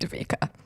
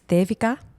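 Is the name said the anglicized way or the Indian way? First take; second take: anglicized; Indian. First: The name is said with an English-style pronunciation. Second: The name is said with its Indian pronunciation. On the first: This is how others usually say the name. "even my man calls me Davika" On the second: This is the name's original pronunciation. "the actual Indian pronunciation of my name"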